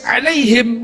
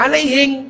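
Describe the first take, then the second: First: It ends with a standard Arabic m sound. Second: It ends with a Bugis-accented ng sound.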